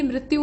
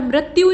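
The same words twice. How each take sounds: First: मृत्यु starting "mri"; correct form. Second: मृत्यु starting "mra"; wrong form. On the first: Teacher correcting it, मृत्यु starting "mri". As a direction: say मृत्यु as "mrityu". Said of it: "बल्कि मृत्यु होता है". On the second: Teacher showing the mistake, मृत्यु starting "mra". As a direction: say मृत्यु as "mratyu". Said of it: "नहीं होता है बल्कि". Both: Shown as a demonstration.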